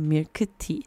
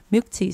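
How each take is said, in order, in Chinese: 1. 这是用韩文发音。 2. 这是用英文发音。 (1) "但韩文的话我们会念成milk tea" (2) "milk tea 是英文吧"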